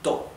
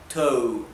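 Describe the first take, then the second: First: The vowel is dry and compact. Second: The vowel is loose, not dry and compact. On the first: The speaker calls it right. "the O is dry, compact O" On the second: The speaker calls it wrong. "Not to"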